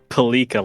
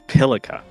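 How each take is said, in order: First: The stress is on the second syllable. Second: The stress is on the first syllable. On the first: The speaker calls it wrong. "the emphasis is not on the second syllable of the name" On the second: The speaker calls it right. "it's on the first"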